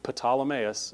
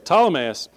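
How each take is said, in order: First: The initial P is pronounced aloud. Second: The initial P is silent. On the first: The speaker calls it wrong. "he mispronounced just about all of them" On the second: The speaker calls it right. "don't even try to pronounce that P"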